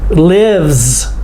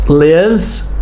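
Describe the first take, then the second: Both takes have the same delivery.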